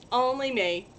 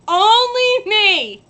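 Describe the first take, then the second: First: Said in the usual way. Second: Higher, louder, slow drawn-out only me; drawn-out lament. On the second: Real, not acted. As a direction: stretch it out in mock despair. Says it twice in different ways.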